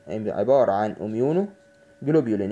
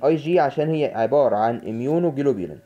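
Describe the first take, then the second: First: Slow and deliberate. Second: Said in the usual way. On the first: Shown as a demonstration. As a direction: slowly spell out عبارة عن اميونوجلوبولين syllable by syllable. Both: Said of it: "teacher repeats the term slowly".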